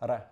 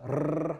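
First: The R is a single quick flap. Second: The R is a rolled trill. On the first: "Otherwise, it's a R, R, R, just like in a word like matador" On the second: "at the beginning or end of a word, it's a R like that"

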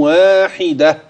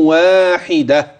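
The two takes are said the same way.

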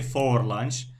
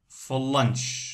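First: The word for is fully pronounced. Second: The word for is reduced and linked. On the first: The speaker calls it wrong. "They don't say for lunch" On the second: The speaker calls it right. "here they say for lunch"

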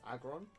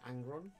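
First: No N sound comes before the G. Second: An N sound comes before the G. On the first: The speaker calls it right. "It's Aggron" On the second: The speaker calls it wrong. "I always call it Angron"

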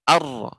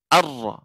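First: The r is trilled with few vibrations. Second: The same.

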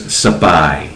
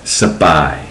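First: A short vowel separates the S and P. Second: A short vowel separates the S and P.

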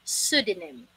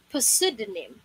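First: The word starts with an S sound, no P. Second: The word starts with a pronounced P sound. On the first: The speaker calls it right. "Letter P here is silent" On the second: The speaker calls it wrong. "Pinipilit maipasok yung letter P, which is wrong"

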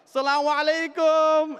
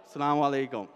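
First: The greeting sounds warm and hearty. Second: The greeting sounds stiff and formal. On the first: The greeting is heartfelt and friendly. "there's no formality ... it's like Assalamu alaikum" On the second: The greeting is a mere formality. "It's not like Assalamu alaikum"

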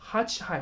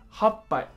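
First: The word is said hachihai, with 'chi' inside. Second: The word is said happai, with a doubled 'p'. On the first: This is the standard form. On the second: This is the colloquial form.

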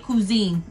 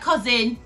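First: It is said like the English word cuisine. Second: It is said like the English word cousin. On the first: The speaker calls it right. "but it's probably cuisine" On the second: The speaker calls it wrong. "it looks like cousin"

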